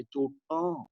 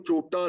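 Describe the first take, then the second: First: ਚੋਟਾਂ said with a nasalized final aan, chotaan; nasal plural. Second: ਚੋਟਾ said with a plain non-nasal final aa; wrong reading. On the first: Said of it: "ਉਚਾਰਨ ਨਾਸਕੀ ਹੋਏਗਾ". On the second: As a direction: read ਚੋਟਾ wrongly, ending on an open oral aa. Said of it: "ਇਹਨੂੰ ਚੋਟਾ ਨਹੀਂ ਪੜਨਾ". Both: Shown as a demonstration.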